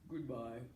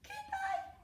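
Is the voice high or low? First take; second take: low; high. First: It is said in a very low voice. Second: It is said in a very high voice.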